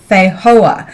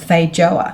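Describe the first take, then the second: First: It is said the South American way. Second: It is said the New Zealand and Australian way. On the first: This is the pronunciation from the fruit's origin. "I think they're pronounced feijoa" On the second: This is the local, easier pronunciation. "many people in New Zealand and Australia like to call them feijoa"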